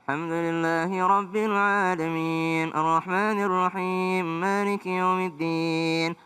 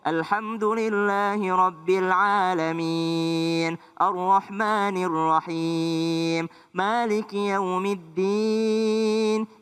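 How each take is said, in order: First: The vowels are mumbled with the mouth barely open. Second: The vowels are clear with the mouth open. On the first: The speaker calls it wrong. "Bagus didengar tetap tapi enggak jelas" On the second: The speaker calls it right. "Beda dengan"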